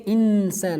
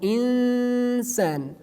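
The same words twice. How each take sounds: First: The N is pronounced clearly and fully. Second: The N is hidden in a nasal sound. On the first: The speaker calls it wrong. "We do not say insan" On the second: The speaker calls it right. "no, insan"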